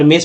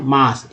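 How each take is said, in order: First: मेस with an "ay" vowel; spelling-based mispronunciation. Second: मास with an open "aa" vowel; correct pronunciation. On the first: Teacher warning of the wrong reading, मेस with "ay" vowel. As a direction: say मेस as "mace", letter-name A. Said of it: "पढ़ते तो गलत हो जाता". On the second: Teacher answering how A sounds here, मास with open "aa". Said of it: "अ बोला गया". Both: Shown as a demonstration.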